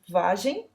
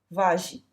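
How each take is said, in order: First: The final vowel sound is nasal. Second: The final vowel sound is oral.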